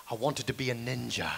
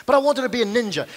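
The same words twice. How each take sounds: First: Hushed, earnest reveal played for laughs; mock-solemn confession. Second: Higher, louder declaration; energetic, insistent claim; emphatic restatement. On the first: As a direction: lower and softer, for dramatic effect. Solemn mock confession after pause. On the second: Acted. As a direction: declare it with renewed gusto. Restates the confession with renewed energy.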